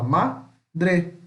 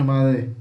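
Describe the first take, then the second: First: Madre broken into MA, long pause, DRE; two separate syllables. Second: Madre said as one joined-up word; syllables run together. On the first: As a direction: say madre slowly in two clear beats. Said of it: "a gente fala". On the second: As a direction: slur madre together without a break between ma and dre. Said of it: "A gente não fala tudo de". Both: Shown as a demonstration.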